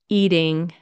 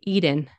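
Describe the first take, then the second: First: The word ends with an ng sound. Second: The word ends with an n sound. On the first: "Instead of saying" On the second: "you could say"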